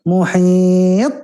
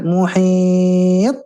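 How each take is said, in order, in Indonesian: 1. Huruf t di akhir ditahan sebelum dilepas. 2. Huruf t di akhir ditahan sebelum dilepas.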